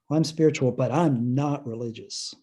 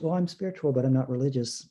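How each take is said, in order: First: It is said in a hurt, resentful tone. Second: It is said in a plain, neutral tone. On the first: The person has been hurt by religion and rejects it. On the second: The person simply describes their own beliefs.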